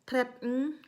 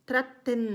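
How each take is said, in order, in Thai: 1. พยางค์สุดท้ายกลืนลงในลำคอ 2. พยางค์สุดท้าย 'ten' ออกเสียงชัดเจน (1) "คนนอร์เวย์เขาจะไม่ออกเสียงเทนนะคะ เขาจะออกเสียงในลำคอค่ะ" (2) "สำหรับใครที่เริ่มฝึกใหม่ๆนะคะ ... ให้เราออกเสียงเทน ก็ได้นะคะ"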